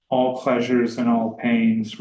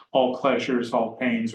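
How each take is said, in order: First: Said in the usual way. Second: "all pleasures" and "all pains" split apart, each weighted; antithesis stressed. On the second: Shown as a demonstration. Lecturer pointing out the antithesis, separated emphasis. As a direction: pause between the halves to set them against each other. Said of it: "that antithesis".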